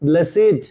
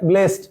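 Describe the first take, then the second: First: The word is said as two syllables. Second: The word is said as one syllable. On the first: It is an adjective meaning fortunate. "যখন এটা adjective হিসেবে কাজ করবে তখন এর উচ্চারণ হবে ব্লেসিড" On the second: It is a past participle after have. "যদি পাস্ট পার্টিসিপল হয় ... তখন এর উচ্চারণ হবে ব্লেসড"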